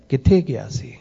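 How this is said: The question is asked in a warm, affectionate tone. The asker cares about the person. "ਜਦੋਂ ਪਿਆਰ ਵਿੱਚ ਪੁੱਛਿਆ ਹੈ"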